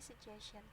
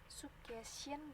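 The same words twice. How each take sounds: First: The u vowel is reduced, not as spelled. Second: The u vowel is pronounced fully, as spelled. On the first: The speaker calls it right. "jangan dilihatkan U-nya ya" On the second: The speaker calls it wrong. "bukan suggestion"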